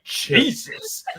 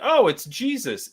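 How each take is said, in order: First: It is blurted out like a startled curse. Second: It is said as a calm, plain remark.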